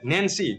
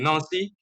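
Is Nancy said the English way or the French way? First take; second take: English; French. First: It is read as spelled, English style. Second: It is said with French pronunciation. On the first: The speaker calls it wrong. "it is spelled like Nancy" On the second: The speaker calls it right. "the pronunciation is actually Nancy"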